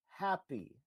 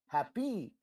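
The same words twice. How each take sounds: First: The word has a normal, natural inflection. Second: The word has an odd, strange inflection. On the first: The speaker calls it right. "instead of happy" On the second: The speaker calls it wrong. "happy is how it landed on the track"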